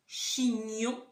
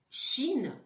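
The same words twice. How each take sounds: First: "chignon" louder and higher, clear gn; "chignon" rising and clear; example word. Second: "Chine" louder and higher, no gn; "Chine" said loud, with a clear n; example word. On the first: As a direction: show the word to check. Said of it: "si je vous dis". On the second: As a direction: show a word without the sound. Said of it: "Si je vous dis". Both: Shown as a demonstration.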